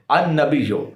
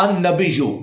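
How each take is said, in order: First: "النبیو" ending in an o, -yo; own reading. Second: "النبیو" ending in a u, -yu; imitated correction. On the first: Shown as a demonstration. Explaining to viewers how his side reads, own reading. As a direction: say "النبیو" as an-nabiyyo, pitched lower. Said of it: "ہم النبیو پڑھتے ہیں". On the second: Quoting the opponent's version to viewers, imitated correction. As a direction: say "النبیو" as an-nabiyyu. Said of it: "اور اس نے کہا".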